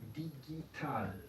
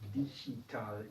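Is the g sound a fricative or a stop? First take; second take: stop; fricative. First: The g is a hard stop. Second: The g is a throaty fricative. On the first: The speaker calls it right. "la G en alemán se pronuncia siempre G" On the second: The speaker calls it wrong. "no decimos digital"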